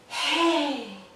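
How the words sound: It is said with a breathy, airy voice.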